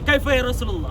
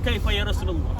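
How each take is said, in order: First: The question is asked a little louder. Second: The question is asked at a normal volume. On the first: She repeats it after getting no answer. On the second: She asks for the first time.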